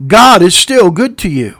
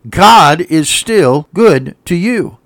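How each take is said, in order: First: Louder, punchy and quicker flowing; emphatic repeat. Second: Each word slow and deliberate; slow emphasis. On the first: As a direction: drive "God is still good to you" home loudly. Repeats it more forcefully. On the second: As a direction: space out "God is still good to you". Repeats the line for emphasis. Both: Real, not acted.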